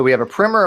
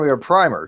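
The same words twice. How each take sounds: First: "primer" said as "primmer"; short i in "primer", rhyming with swimmer; short-i pronunciation. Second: "primer" said as "pry-mer"; long i in "primer", rhyming with timer; long-i pronunciation. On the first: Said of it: "How you guys pronounce this word?". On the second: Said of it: "I don't say primer". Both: Shown as a demonstration.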